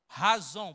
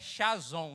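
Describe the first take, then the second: First: The word starts with a throaty h sound. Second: The word starts with a hissing sh sound. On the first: The speaker calls it right. "A pronúncia correta" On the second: The speaker calls it wrong. "parece que é chazon"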